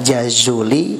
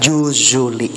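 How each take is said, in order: First: The first vowel is an 'a' sound. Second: The first vowel is a 'u' sound. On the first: "boleh dibaca Jazuli" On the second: "boleh dibaca Juzuli"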